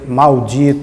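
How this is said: The first syllable ends in a clear L sound. It sounded pedantic among the locals. "eu me sentia pedante falando"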